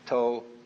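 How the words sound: It is said with a Cantonese pronunciation.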